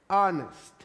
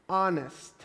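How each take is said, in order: First: The word begins directly with a vowel sound. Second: The word begins directly with a vowel sound.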